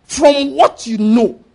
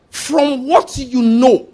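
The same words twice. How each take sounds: First: From what you know repeated slowly, stress on what. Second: From what you know spelled out slowly, each word weighted; slow, stressed answer. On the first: Preacher repeats the answer so the congregation remembers, slow and stressed. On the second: Preacher answers his own question to the congregation, slow and emphatic. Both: Shown as a demonstration. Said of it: "Power is what?".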